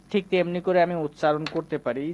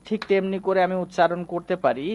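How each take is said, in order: Both takes have the same delivery.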